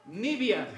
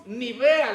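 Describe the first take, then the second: First: Nibia said NI-bia, two clear syllables; correct pronunciation. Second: Nivea said slowly with a clear v, ni-VE-a; wrong pronunciation. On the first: Preacher giving the hymn's right word, Nibia as NI-bia. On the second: Preacher imitating how the church sang Nivea, slowly ni-VE-a. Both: Shown as a demonstration. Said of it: "esa no es la pronunciación correcta".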